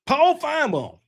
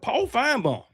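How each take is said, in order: First: "Paul Finebaum" exclaimed high with a falling finish; excited callout. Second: Said in the usual way. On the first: Real, not acted. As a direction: shout "Paul Finebaum" like a sudden realization.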